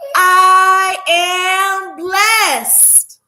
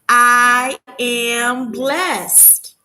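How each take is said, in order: First: It is said loudly, almost shouted. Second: It is said at normal volume.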